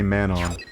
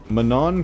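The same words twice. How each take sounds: First: The name sounds like the two words 'man on'. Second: The name does not sound like 'man on'. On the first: It doesn't feel like the name of a race. The speaker calls it wrong. "It's really unnatural to say Manon. It's like you're saying, like, man on hill" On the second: It feels like the name of a race. The speaker calls it right. "Manon kinda does"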